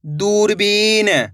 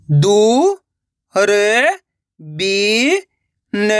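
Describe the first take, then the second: First: One slow, unbroken word; blended word. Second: Drawn-out syllables, clearly separated. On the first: Teacher showing what the syllables make, slowly blended. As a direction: join the pieces and stretch the word. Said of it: "तो मिलके बन जाएगा". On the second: Teacher spelling out a word for learners, syllable by syllable. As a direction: sound it out piece by piece. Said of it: "एक एक अक्षर का उच्चारण करके". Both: Shown as a demonstration.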